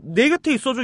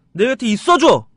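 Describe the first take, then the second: First: Line read with the stress in the wrong place, slightly higher. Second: 내 곁에 있어줘 said louder with the stress where you would naturally speak; natural speech stress. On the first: A vocal teacher demonstrates the wrong stress, slightly raised. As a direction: stress 내 곁에 있어줘 where you never would in speech. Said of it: "이렇게 안 해요". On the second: A vocal teacher demonstrates natural spoken stress, louder. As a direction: say it the way you would actually talk, punching it. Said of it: "이래요". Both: Shown as a demonstration.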